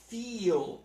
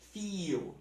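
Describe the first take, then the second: First: The final L is a full consonant. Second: The final L sounds like a vowel.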